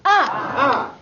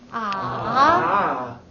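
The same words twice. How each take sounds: First: The pitch falls sharply from high to low. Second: The pitch dips low, then rises.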